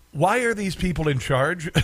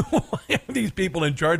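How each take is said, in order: First: Said in the usual way. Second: Asked again through a real laugh; laughing repeat. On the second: Real, not acted. Host repeating his question to listeners, laughing.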